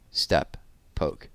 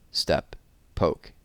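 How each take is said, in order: Both takes have the same delivery.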